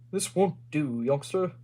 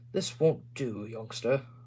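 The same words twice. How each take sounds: First: It is read in a put-on character voice. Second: It is read in the reader's ordinary voice. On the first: The speaker calls it right. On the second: The speaker calls it wrong.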